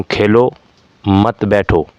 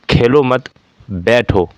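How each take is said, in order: First: "Khelo", a short pause, then "मत बैठो" together; pause after खेलो. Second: "खेलो मत" run together, pause, then falling "बैठो"; pause after मत. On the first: Teacher showing how a comma changes meaning, pause after Khelo. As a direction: break right after Khelo, keeping मत with बैठो. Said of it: "थोड़ा रुका, फिर कहा". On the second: Teacher contrasting the meaning by moving the comma, pause after मत. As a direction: break right after मत, before बैठो. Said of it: "यहाँ अलग भाव है". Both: Shown as a demonstration.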